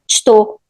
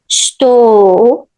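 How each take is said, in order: First: The word is said faster and more clipped. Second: The word is said at a normal pace. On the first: "or even faster" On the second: "we can just cut the u and say o"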